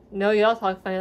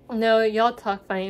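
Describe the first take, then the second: First: Put-on teasing retort with a southern accent. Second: Teasing imitation of Minnesotan relatives; Minnesotan accent. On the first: Southern cousins answering northern relatives, southern accent. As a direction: let a southern accent come out. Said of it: "our southern accents come out". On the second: Northern relatives teasing southern cousins, Minnesotan accent. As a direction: tease back in a Minnesotan accent. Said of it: "And they always say".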